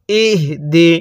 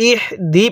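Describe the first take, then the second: First: ইহ দি with a firm sounded h before দি; ইহ দি in two separated, careful syllables; fully sounded h. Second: ইহদি with only a light puff of air for the h; ইহদি run together, the h barely sounded; weak h. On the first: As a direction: give the h of ইহ some sound, then দি. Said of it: "একটু শব্দ করবেন". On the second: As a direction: let a little air slip through the h of ইহদি. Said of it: "মুখ দিয়ে হালকা বাতাস বের করে". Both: Shown as a demonstration.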